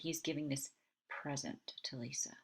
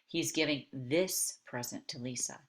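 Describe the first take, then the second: First: The stress is on present. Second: The stress is on this.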